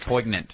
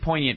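First: The g is clearly pronounced aloud. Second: The g is silent, a French-like sound. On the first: "so I'll say poignant" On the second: "it sounds too French"

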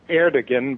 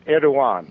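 First: The name is read as spelled, g sounded. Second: The name is said without a sounded g. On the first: This is how the spelling makes it look. The speaker calls it wrong. "it looks like Erdogan" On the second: This is how the name is really said. The speaker calls it right. "but it's Erdogan"

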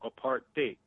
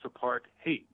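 First: The last syllable sounds like 'hate'. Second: The last syllable sounds like 'hate'.

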